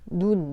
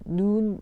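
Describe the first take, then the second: First: The vowel is said short. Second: The vowel is said long. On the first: It means the eye. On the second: It means falling snow.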